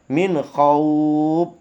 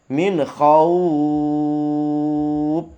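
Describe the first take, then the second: First: The long vowel is held for two beats. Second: The long vowel is held for four beats. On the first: "dua harokat" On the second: "empat harokat"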